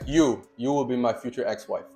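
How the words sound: It is said as a firm command.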